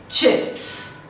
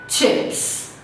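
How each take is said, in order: Both takes have the same delivery.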